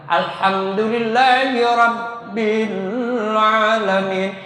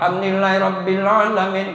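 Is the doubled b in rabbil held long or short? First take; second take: long; short. First: The doubled b is held for two beats. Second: The doubled b is not held at all. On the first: The speaker calls it right. "dua ketukan" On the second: The speaker calls it wrong. "jangan ... nggak bagus ya"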